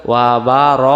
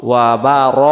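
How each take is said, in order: The two takes are said the same way.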